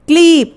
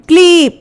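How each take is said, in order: The two takes are said the same way.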